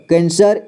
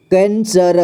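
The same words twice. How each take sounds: First: Said in the usual way. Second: कैंसर split as कैं, स, र; syllable by syllable. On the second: Shown as a demonstration. Teacher showing learners कैंसर, sounded out in parts. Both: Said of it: "इसे पढ़ेंगे".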